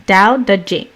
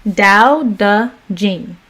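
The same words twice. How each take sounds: First: Said in the usual way. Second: Dao De Jing slowed, tones stressed; careful Chinese tones. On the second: Shown as a demonstration. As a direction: say Dao De Jing slowly, placing each tone. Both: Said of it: "Think I got that right".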